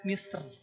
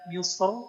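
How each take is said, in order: First: The final r is pronounced light and thin. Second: The final r is pronounced heavy and thick. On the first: "boleh tipis" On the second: "Roknya boleh tebal"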